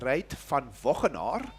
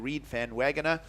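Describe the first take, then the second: First: The name has a South African Dutch pronunciation. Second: The name has an American English pronunciation.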